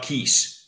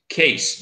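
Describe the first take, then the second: First: The vowel sounds like 'ee' in 'keys'. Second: The vowel sounds like 'ay' in 'case'. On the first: The speaker calls it wrong. "not keys" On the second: The speaker calls it right. "you pronounce the brewery as case"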